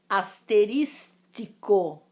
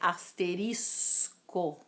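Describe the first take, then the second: First: An extra ti syllable appears near the end. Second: No extra syllable appears near the end. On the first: This is how some people say it informally. The speaker calls it wrong. "algumas, falam asterístico" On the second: This is the standard form. The speaker calls it right. "O correto é asterisco"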